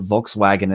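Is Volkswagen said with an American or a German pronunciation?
American. The word is said with an American pronunciation. This is how Americans say it. "we pronounce it"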